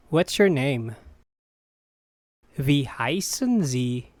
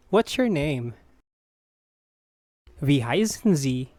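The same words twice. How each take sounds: The two takes are said the same way.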